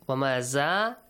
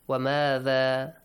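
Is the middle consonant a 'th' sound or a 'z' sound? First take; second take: z sound; th sound. First: The middle consonant is a buzzing z sound. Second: The middle consonant is a voiced th sound. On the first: The speaker calls it wrong. "Wamaza is wrong" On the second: The speaker calls it right.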